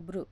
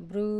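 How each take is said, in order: First: "బ్రు" with a short u ending; short vowel. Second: "బ్రూ" with the u held long; long vowel. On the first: Teacher reading the letter chart to learners, short vowel. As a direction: say "బ్రు" briefly, vowel not held. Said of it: "బాకి రుత్వం ఇస్తే". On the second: Teacher showing learners the lengthened sign, long vowel. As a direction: draw out the end of "బ్రూ". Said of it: "బాకి రుత్వన దీర్ఘం ఇస్తే". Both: Shown as a demonstration.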